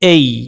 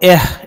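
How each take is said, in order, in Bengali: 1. এটি একটি গড়ানো 'ay' স্বরধ্বনি। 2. এটি একটি সাধারণ, হ্রস্ব 'eh' স্বরধ্বনি। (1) "এটি বলবো এই" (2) "এটাকে আমরা এহ এরকম বলবো না"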